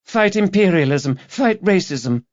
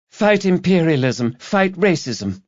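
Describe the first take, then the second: First: Put-on high, earnest young woman repeating her slogan; young activist girl. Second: Put-on high, earnest young woman chanting slogans; young activist girl. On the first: Student repeating her slogan to Rebus, high earnest voice. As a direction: pitch up into the keen campaigner again. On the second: Student collector to pub drinkers, high earnest slogan voice. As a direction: pitch her voice up like a keen student campaigner. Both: A narrator's reading.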